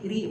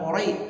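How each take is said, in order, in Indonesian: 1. Suku kata ri itu tipis dan ringan. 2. Suku kata ri itu tebal dan berat. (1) "rohnya ti tipis" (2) "bukan ori"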